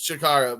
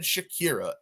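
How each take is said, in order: First: The middle vowel sounds like 'ah'. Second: The middle vowel sounds like 'ee'. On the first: The speaker calls it right. "think it is Shakara" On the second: The speaker calls it wrong. "I did not know how to pronounce it, and said Shakira"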